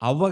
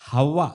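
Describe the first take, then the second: First: The name starts with a vowel, without h. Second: The name starts with an h sound. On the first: The speaker calls it wrong. "అవ్వ కాదు" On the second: The speaker calls it right. "హ హెచ్"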